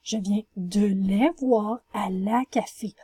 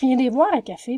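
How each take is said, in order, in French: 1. Chaque mot est prononcé en entier et séparément. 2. Les mots sont enchaînés, avec des syllabes escamotées. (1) "Vous allez écrire" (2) "on incorpore deux mots ensemble pour en former un"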